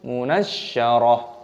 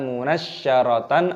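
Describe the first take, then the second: First: The word ends with a soft h sound. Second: The word ends with a tan sound. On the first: The speaker calls it right. "tapi munasyarah" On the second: The speaker calls it wrong. "bukan dibaca munasyaratan"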